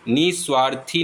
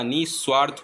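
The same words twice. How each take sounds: First: निस्वार्थी ending in "thee"; wrong ending. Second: निस्वार्थ ending on "rth"; no vowel after निस्वार्थ; correct ending. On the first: Teacher showing the mistake, निस्वार्थी with final "ee". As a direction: add long ee to the end of निस्वार्थी. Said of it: "निस्वार्थी नहीं होता". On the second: Teacher giving the correction, निस्वार्थ closed on "rth". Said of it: "निस्वार्थ होता है". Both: Shown as a demonstration.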